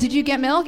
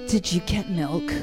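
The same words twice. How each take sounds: First: The question is asked in a plain, neutral tone. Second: The question is asked in a loaded, pointed tone. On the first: It is a simple question. "I don't say did you get milk" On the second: It implies blame over the missing milk. "It's like that tone of voice"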